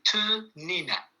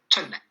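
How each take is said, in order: First: The word is said in its full form. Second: The word is said in a shortened form. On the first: "Normalement, c'est Te-nina" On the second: "on l'a raccourci, on en a fait Te-na"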